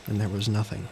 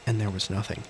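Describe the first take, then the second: No difference in how they are said.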